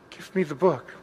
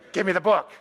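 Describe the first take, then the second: First: It is said in a humble, gentle tone. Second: It is said in a demanding, hostile tone.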